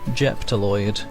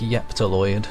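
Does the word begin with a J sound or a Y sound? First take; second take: J sound; Y sound. First: The word begins with a J sound. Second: The word begins with a Y sound. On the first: "That's not a J" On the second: "pronounce the J as a Y instead? Like Yeptaloid"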